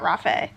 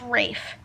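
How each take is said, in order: First: The name does not rhyme with safe. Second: The name rhymes with the word safe. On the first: The speaker calls it wrong. "not Rafe" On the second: The speaker calls it right. "It's Rafe"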